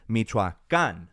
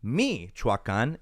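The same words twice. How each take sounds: First: Michoacan slowly with the stress on the written accent, final -can; correct stress. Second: Michoacan slow, weight on the first i, the wrong version; wrong stress again. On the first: Teaching non-Spanish speakers the right Michoacan. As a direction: land the stress at the very end of Michoacan. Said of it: "this is how you read accent". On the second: Repeating the wrong Michoacan for non-Spanish speakers. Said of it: "So again, not Michoacan". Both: Shown as a demonstration.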